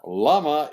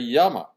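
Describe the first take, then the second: First: The word begins with an L sound. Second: The word begins with a Y sound. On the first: The speaker calls it wrong. "Double L in Spanish is not la" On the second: The speaker calls it right. "it's ya, like in English, Y"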